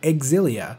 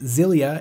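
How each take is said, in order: First: The name begins with an 'eks' sound. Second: The name begins with a 'z' sound. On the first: The speaker calls it right. "you do pronounce the X as X and not Z" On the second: The speaker calls it wrong. "If it were pronounced Zilia, it would just be out of place"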